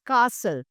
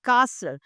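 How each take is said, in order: First: The T sound is silent. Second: The same.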